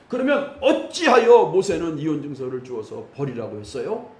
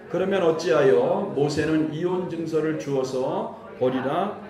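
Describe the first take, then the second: First: It is read in a challenging, argumentative tone. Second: It is read in a plain, neutral tone.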